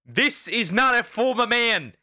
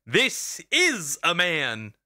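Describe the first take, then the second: First: "not" hit high and hard; stress on not. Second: "This is a man" spelled out slowly; slow and emphatic. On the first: Streamer rejecting the phrase, stress on "not". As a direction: punch the word "not". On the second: Streamer insisting, slow and emphatic. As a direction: lay each word down slowly. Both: Real, not acted.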